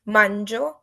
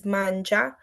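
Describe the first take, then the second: First: "Mangio" as MAN-jo, ending on a clear o; Italian ending -io. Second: "mangia" as MAN-ja, ending on an open a; Italian ending -a. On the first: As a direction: say "Mangio" with a crisp final o for I eat. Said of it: "it shows who is". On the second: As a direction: say "mangia" with a clear final a, a little slower. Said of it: "if you were eating, is". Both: Shown as a demonstration.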